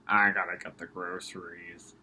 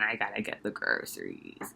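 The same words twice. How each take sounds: First: It is spoken in a put-on old man's voice. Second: It is spoken in a put-on old woman's voice. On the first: "Maybe I'll do an old man voice" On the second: "I have to do my old lady voice"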